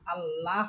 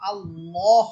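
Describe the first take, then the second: First: The L is light, said with a thin sound. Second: The L is heavy, said with a full mouth. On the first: The speaker calls it wrong. "আল্লাহ হবে না" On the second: The speaker calls it right. "আল্লাহ শব্দ মোটা হবে, অর্থাৎ আল্লাহ হবে"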